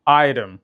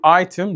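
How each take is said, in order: First: "ايتم" with a flapped T, close to R; lightened flap T in "ايتم"; American soft T. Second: "ايتم" with a clear, hard T; fully released T in "ايتم"; British T. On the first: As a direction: say "ايتم" as "eye-rem", American style. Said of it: "الامريكان يخففها شويه". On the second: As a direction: say "ايتم" as "eye-tem", British style. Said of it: "ده يقول ايتم". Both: Shown as a demonstration.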